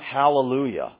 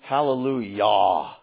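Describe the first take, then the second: First: The final syllable sounds like yeah. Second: The final syllable sounds like yah. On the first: The speaker calls it wrong. "It's not hallelujah, yeah, yeah" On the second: The speaker calls it right. "It's hallelujah, Yahweh that we're talking about"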